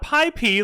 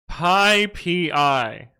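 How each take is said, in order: First: The name ends with the letter P only. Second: The name ends with the letters P and I. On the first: The speaker calls it wrong. "not Pi P like some of the dumb Americans say" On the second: The speaker calls it right. "it is Pi P I"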